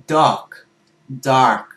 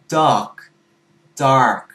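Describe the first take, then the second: Both takes have the same delivery.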